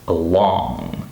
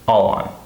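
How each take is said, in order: First: The stress is on the second syllable. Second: The stress is on the first syllable. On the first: "the second syllable is stressed" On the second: "the first word is stressed"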